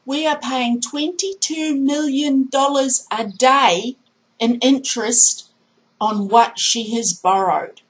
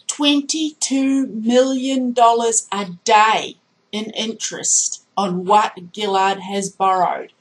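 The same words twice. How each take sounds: First: Said in the usual way. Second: Twenty-two million dollars a day said slowly, each word weighted; slow and emphatic. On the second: Shown as a demonstration. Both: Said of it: "You have to say it like that".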